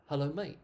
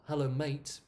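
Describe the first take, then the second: First: Mate cut short as mei, no t; mate without t. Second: Mate ending in a clear released t; mate with full t. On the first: Teacher showing the natural form, the t dropped. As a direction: drop the t at the end of mate. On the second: Teacher showing the form she does not use, full t. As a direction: say Hello, mate with a crisp t. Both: Shown as a demonstration.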